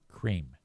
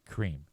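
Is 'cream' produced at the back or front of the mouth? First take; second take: front; front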